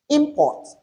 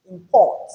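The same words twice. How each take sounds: First: IMport, first syllable pitched high, then falling; noun stress on first syllable. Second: ImPORT, weak first syllable, punched second; verb stress on second syllable. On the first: Teacher listing naming words, first syllable stressed in import. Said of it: "the first syllable of each". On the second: Teacher reading out the verbs, second syllable stressed in import. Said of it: "the stress is on the second". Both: Shown as a demonstration.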